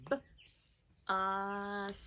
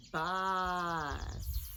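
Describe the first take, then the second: First: "B-, us" split, short b, pause, long "us"; sounded out. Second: "bus" in one piece, long vowel and hiss; blended together. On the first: Teacher having children try bus, segmented. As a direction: break "bus" into separate sounds. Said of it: "Try that one". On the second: Teacher putting bus together, blended and drawn-out. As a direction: join the sounds of "bus" slowly. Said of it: "put them together". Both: Shown as a demonstration.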